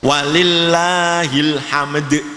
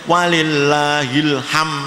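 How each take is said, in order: First: The final d sound is clearly pronounced. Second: The final d sound is left off. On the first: The speaker calls it right. "Harus walillahil hamd" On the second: The speaker calls it wrong. "tidak boleh walillahil ham"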